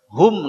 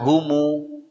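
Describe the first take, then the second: First: The word ends on a closed m sound. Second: The word ends with an added u vowel. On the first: "Ada yang tidak bisa em" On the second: "Mereka humu"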